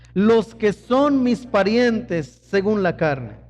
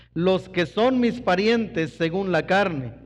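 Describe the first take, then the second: The two takes are said the same way.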